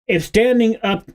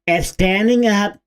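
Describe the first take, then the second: First: It is said in his normal voice. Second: It is said in a mocking Blue Sky voice.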